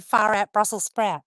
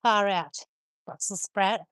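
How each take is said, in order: First: "Far out Brussels sprout" said slowly and a bit louder, each word spelled out; slow catchphrase. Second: Said in the usual way. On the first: Shown as a demonstration. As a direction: spell the saying out slowly for a confused friend. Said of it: "he didn't understand what I said when I said". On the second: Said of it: "when I said, "Far out Brussels sprout".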